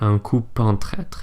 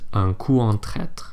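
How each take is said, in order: First: The p of coup is linked to en. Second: The p of coup stays silent before en. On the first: The speaker calls it wrong. "you don't say" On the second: The speaker calls it right. "Instead, it's just"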